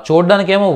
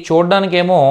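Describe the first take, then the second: The two takes are said the same way.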